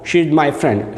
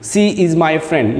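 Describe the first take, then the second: First: The first word begins with an sh sound. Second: The first word begins with a plain s sound. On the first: The speaker calls it right. "She, S H, she, S H. That sound you have to clear" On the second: The speaker calls it wrong.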